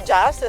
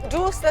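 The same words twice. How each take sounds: First: It is pronounced like the English word. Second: It is pronounced as in Venetian dialect. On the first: It is the international name. "se vogliamo essere internazionali" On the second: It is the local, regional name. "se lo pronunciamo in dialetto veneto"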